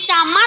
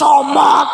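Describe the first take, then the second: First: The vowels are pronounced as open 'a' sounds. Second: The vowels are pronounced as rounded 'o' sounds. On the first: This is how it is said locally here. "Kalau di sini" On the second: This is how it is said in Surabaya.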